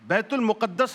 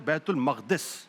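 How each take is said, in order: First: The second word is pronounced 'muqaddas'. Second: The second word is pronounced 'maqdis'. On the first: The speaker calls it wrong. "ये लफ्ज गलत है" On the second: The speaker calls it right. "जो सही लफ्ज है"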